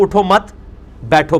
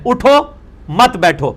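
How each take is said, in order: First: Group "اٹھو مت" together, pause before "بیٹھو"; pause after مت. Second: "اٹھو" alone, a break, then "مت بیٹھو" together, slowly; slow "اٹھو", clear pause, then "مت بیٹھو" as one unit; pause after اٹھو. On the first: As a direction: stop after مت, then give بیٹھو separately. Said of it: "اٹھو مت پہ رک جائیں". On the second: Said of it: "اور اگر آپ "اٹھو" پہ رک جائیں". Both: Shown as a demonstration.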